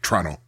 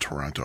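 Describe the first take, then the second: First: It is said the way Toronto locals say it. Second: It is said in a standard, non-local way.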